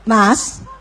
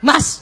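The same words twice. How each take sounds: First: It is called sweetly and gently. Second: It is called with rising annoyance.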